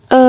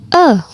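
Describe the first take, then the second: First: The vowel carries the third tone. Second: The vowel carries the fourth tone. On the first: "nada ketiga" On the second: "nada keempat"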